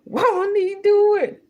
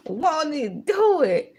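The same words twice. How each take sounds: First: High, loud church praise; praise exclamation. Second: Said in the usual way. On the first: Real, not acted. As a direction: belt it like a praise shout.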